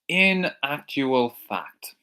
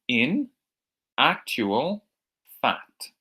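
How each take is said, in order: First: It is said at normal speed. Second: It is said slowly.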